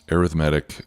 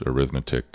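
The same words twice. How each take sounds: First: It is said with the adjective's stress pattern. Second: It is said with the noun's stress pattern. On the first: "sounds like an adjective to me" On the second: "sounds like a noun"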